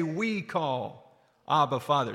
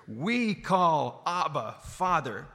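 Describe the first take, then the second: First: We call Abba said slowly again. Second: Slow, drawn-out We call Abba. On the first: Preacher prompting the congregation to repeat, slow. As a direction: draw it out for them to echo. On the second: Preacher leading the congregation in a slow call. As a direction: lead the words slowly so they repeat. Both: Shown as a demonstration. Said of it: "Somebody say".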